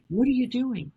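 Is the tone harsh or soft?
soft. It is said in a soft, gentle tone.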